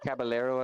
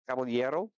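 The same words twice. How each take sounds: First: The name is pronounced the English way. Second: The name is pronounced the Spanish way.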